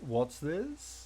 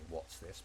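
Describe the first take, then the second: First: It is said as a surprised exclamation. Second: It is said as a genuine question.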